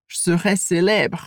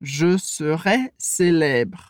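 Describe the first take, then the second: First: "Je serai" with both E sounds dropped; everyday native reduction; reduced casual speech. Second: Slow, careful syllable by syllable; slow dictation pace; very slowly. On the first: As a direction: swallow the E in "Je serai". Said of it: "a gente tende a falar prático e fazer muita redução". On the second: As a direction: stretch every syllable out. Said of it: "se a gente fala bem lentamente". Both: Shown as a demonstration.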